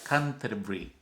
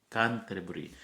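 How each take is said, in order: The two takes are said the same way.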